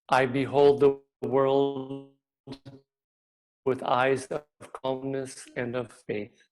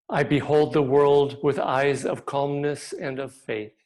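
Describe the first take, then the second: First: It is said more quietly. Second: It is said very loudly.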